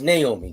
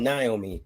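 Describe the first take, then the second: First: Naomi pronounced NAY-oh-mee; first-syllable NAY. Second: Naomi pronounced NIGH-oh-mee; first-syllable NIGH. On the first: Shown as a demonstration. Giving the name as he always thought, Naomi as NAY-oh-mee. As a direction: open Naomi with a "nay" sound. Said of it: "I always thought it was Naomi". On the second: Retold or imitated. Mimicking what everybody else says, Naomi as NIGH-oh-mee. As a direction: open Naomi with a "nigh" sound. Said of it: "everybody else out here talking about".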